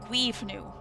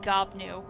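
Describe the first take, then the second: First: The first syllable sounds like giv. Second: The first syllable sounds like gob. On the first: The speaker calls it right. "but Guivnu" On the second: The speaker calls it wrong. "I've been ca- saying Gobnu"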